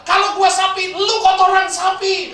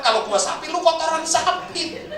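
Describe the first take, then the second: First: Loud, high, angry comeback, last words slowed; angry retort. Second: Raised, higher retort with slowed ending; angry retort again. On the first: Angry Innova driver yelling back at the truck driver. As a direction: snap back furiously, drawing out the insult. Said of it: "Sopir Innova marah". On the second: Innova driver retelling his insult to the truck driver. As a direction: throw the insult back a bit less fiercely. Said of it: "Maka dia bilang". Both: Retold or imitated.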